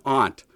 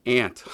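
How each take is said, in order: First: "Aunt" said "ahnt", higher and louder; aunt with broad a. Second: "Aunt" said like "ant", louder. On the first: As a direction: open the vowel in "Aunt" to "ah". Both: Shown as a demonstration. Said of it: "There's no excuse for the mistreatment".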